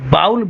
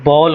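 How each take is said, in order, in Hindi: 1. स्वर 'l' से पहले 'ow' की तरह सरकता है। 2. स्वर 'ball' वाले सादे 'aw' जैसा है। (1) "उसको जानबूझ के बाउल बोलते हैं, क्योंकि उसमें डब्ल्यू भी आ गया" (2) "दोनों का तलफ़ुज़ सेम है, जो प्याला होता है वो भी बॉल होता है"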